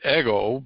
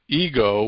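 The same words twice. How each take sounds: First: The word is pronounced the way Greeks say it. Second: The word is pronounced the usual English way. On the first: This is how the original speakers said it. "they pronounced it ego" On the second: This is how it is commonly said today. "but ego, we call it"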